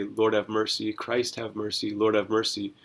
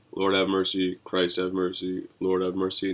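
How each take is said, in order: First: Said in the usual way. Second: Low, rote liturgical recitation; going through the motions. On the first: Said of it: "where we say". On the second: Acted. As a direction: recite it by habit, pitch slightly dropped. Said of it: "go through the motions and say".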